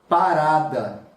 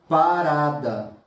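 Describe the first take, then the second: No difference in how they are said.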